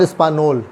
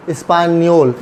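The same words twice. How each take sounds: First: "स्पानोल" with n and no y glide; plain N. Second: "स्पानियोल" with n gliding into y; ny sound. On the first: Teacher showing the wrong reading, plain N. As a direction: go straight from n to ol in "स्पानोल". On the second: Teacher reading the dashed N correctly, ny sound. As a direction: say ny before the final ol of "स्पानियोल". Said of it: "एन और वाई की sound". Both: Shown as a demonstration.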